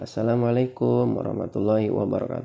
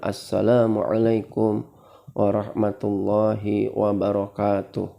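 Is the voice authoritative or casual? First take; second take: casual; authoritative. First: A light, casual voice like everyday chatting. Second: A full, authoritative voice from the chest.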